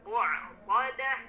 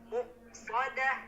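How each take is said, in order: First: The middle glottal stop is pressed hard, like 'ain. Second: The middle glottal stop is said lightly. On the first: The speaker calls it wrong. "terlalu ditekan jadi berubah menjadi huruf ain" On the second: The speaker calls it right. "cukup aja muqsadah"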